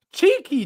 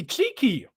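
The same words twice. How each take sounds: First: Cheeky sung high and falling; Cheeky with a bright high fall. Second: Cheeky dropped low and soft; cheeky muttered in a lower, quieter fall. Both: Real, not acted.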